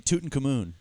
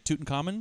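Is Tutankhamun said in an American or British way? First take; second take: British; American. First: The name is said in a British way. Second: The name is said in an American way. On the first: "They say Tutankhamun" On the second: "we say Tutankhamun"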